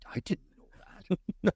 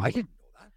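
First: It sounds put-on, like an impression. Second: It sounds outraged.

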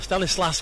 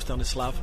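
First: The name ends with an S sound. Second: The name ends with a V sound. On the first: The speaker calls it right. "when it's an S on the end" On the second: The speaker calls it wrong. "I keep calling him Stanislav"

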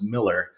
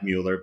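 First: The first vowel is a short i sound. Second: The first vowel is a rounded oo sound. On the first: This is how the family says it. The speaker calls it right. "I interviewed the family and they said, no, it's Miller" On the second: This is how most people say it from the spelling. The speaker calls it wrong. "A lot of people pronounce it Mueller because it looks like Mueller"

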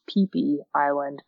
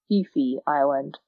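First: The name starts with a P sound. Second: The name starts with an F sound. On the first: The speaker calls it right. "it's actually pronounced Peepy Island" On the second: The speaker calls it wrong. "not Fifi Island"

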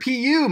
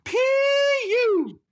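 First: It is said quickly without a break. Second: It is drawn out with a rising-falling pitch. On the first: "go straight through it" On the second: "really draw it out and make it like PU"

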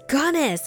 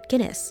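First: The first syllable sounds like 'gun'. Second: The first syllable sounds like 'gin'. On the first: The speaker calls it right. "no, it's Gunness" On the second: The speaker calls it wrong. "mispronounce it and say Guinness"

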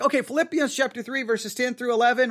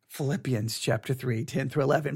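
First: It is said in a casual, ordinary tone. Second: It is said in a grave, serious tone.

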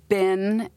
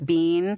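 First: It is said with the American pronunciation. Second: It is said with a non-American pronunciation. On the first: The speaker calls it right. "we actually say it's been here" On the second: The speaker calls it wrong. "We don't say it's bean"

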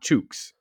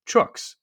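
First: The word rhymes with dukes. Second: The word rhymes with books. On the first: The speaker calls it wrong. "not chooks" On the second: The speaker calls it right. "it actually rhymes with books. So it should be chooks"

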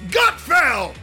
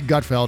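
First: The name is said loudly and excitedly. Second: The name is said plainly and flatly.

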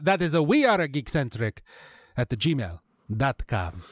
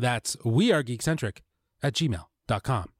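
First: It is said in a put-on foreign accent. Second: It is said in his normal voice.

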